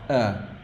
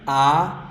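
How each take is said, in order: First: The vowel is soft and less open. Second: The vowel is strong and wide open. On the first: "the last one is soft" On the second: "The first A is strong, open"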